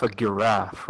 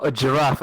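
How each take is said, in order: First: Giraffe starting with a hard G. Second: Said in the usual way. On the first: Shown as a demonstration. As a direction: say "giraffe" as guh-RAFF. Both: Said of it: "you don't call a giraffe a giraffe".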